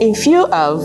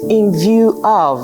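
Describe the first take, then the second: First: The second word begins with an F sound. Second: The second word begins with a V sound. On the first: The speaker calls it wrong. "someone who has the F and V factor keeps saying" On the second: The speaker calls it right. "the speaker meant in view of"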